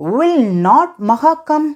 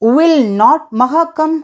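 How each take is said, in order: The two takes are said the same way.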